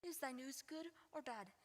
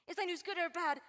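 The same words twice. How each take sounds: First: Quiet pleading. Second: Louder, pressing demand; insistent. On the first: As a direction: ask it softly, almost to herself. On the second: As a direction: push harder, demanding an answer. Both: Acted. Juliet asks twice, pressing.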